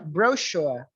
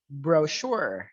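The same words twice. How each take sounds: First: It is said in a British pronunciation. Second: It is said in an American pronunciation.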